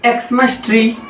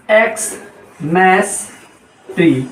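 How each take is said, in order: First: Said in the usual way. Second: एक्समस ट्री very slowly, as "ex... mas... tree"; broken into parts. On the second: Shown as a demonstration. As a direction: stretch एक्समस, pause, then drop low on ट्री. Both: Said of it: "एक्स से क्या होता है?".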